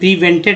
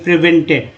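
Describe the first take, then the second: First: The first vowel is a long 'ee' sound. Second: The first vowel is a short 'i' sound. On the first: The speaker calls it wrong. "प्रीवेंटेड नहीं पढ़ेंगे" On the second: The speaker calls it right.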